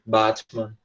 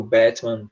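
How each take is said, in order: First: Batman in a British accent, "batmɐn" with a broad a; British accent, Batman with an open a; British pronunciation. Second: Batman in an American accent, "bɛtmɐn" with an open e; American accent, Batman with the a like "bét"; American pronunciation. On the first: Teacher giving the British version of the word. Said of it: "britânico fala bat". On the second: Teacher giving the American version of the word. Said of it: "Americano fala bat". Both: Shown as a demonstration.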